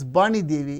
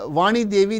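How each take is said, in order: First: The name begins with a b sound. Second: The name begins with a v sound.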